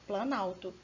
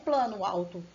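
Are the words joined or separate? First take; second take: joined; separate. First: The words are fused, losing one vowel. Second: The two words are said separately. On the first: The speaker calls it right. "quando a gente aglutina as palavras, você vai falar assim" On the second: The speaker calls it wrong. "Não plano alto"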